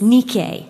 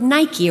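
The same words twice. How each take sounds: First: It is pronounced the Greek way. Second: It is pronounced the common English way. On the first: This is the original name of the goddess. "if you're going to pronounce it correctly in Greek" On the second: This is the brand name as it is advertised. "It's the word Nike"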